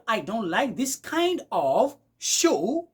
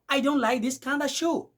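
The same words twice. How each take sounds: First: 'Kind of' is said as two full words. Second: 'Kind of' is blended into 'kinda'. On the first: "Au lieu de dire" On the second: "vous allez écouter du genre"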